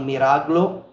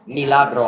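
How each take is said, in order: First: The R comes before the L. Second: The L comes before the R. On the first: The speaker calls it wrong. "I always mispronounce miracle" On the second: The speaker calls it right. "I always flip the L and the R"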